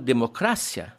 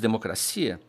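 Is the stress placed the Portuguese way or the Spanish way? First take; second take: Spanish; Portuguese. First: The stress falls where Spanish speakers place it. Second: The stress falls where Portuguese speakers place it. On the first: "Eles falam democracia" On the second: "enquanto a gente diz democracia"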